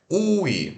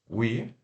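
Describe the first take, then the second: First: It sounds like two vowels, 'oo' then 'ee'. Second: It is one syllable starting with a w glide. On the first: The speaker calls it wrong. "não é ui" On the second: The speaker calls it right. "é we"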